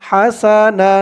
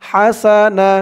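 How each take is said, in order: No difference in how they are said.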